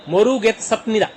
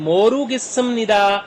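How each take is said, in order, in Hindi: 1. t की आवाज़, फिर nida से पहले p की आवाज़। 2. डबल s, फिर nida से पहले m की आवाज़। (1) "जैसे हम पढ़ते हैं वैसे अगर पढ़ा पढ़ा जाएगा ... नहीं, ऐसे नहीं पढ़ते" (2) "प्रोनाउंसिएशन रूल्स के मुताबिक ... मीम की साउंड देगा"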